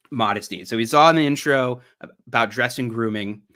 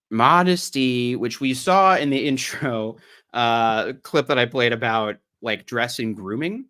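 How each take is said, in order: First: Said in the usual way. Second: A touch of Southern drawl on the vowels; slightly Southern accent. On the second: Real, not acted. Streamer reading about modesty to viewers, Southern accent slipping in. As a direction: read it with a light Southern lilt. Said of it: "A little too Southern".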